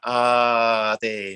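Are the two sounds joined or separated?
joined. Te flows directly out of ah without break. The speaker calls it right. "But you want ah te"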